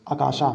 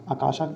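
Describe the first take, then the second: No difference in how they are said.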